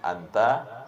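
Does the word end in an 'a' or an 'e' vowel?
a. The word ends with an open 'a' vowel.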